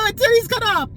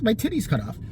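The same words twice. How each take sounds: First: High, loud hammed-up distress; mock panicked wail. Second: Said in the usual way. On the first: Imagined patient panicking in emergency room, hammed-up wail.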